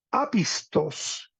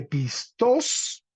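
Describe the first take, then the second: First: Apistos very slow, accent early, then falling; retracted stress. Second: Pistos rising onto a stressed last syllable, pis-TOS; stress on final syllable. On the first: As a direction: stretch "apistos" with the accent pulled back from -tos. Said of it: "hizo una retra". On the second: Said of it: "la forma básica positiva". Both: Shown as a demonstration.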